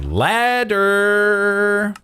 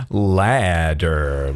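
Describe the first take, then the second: First: "ladder" held very high; silly high, long "ladder"; high drawn-out word. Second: "Ladder" said low and stretched; low, slow "Ladder"; low drawn-out word. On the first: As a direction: stretch "ladder" out on a high, sung-like note. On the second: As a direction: draw out "Ladder" in a low pitch. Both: Pretend. Silly repeated word while crafting.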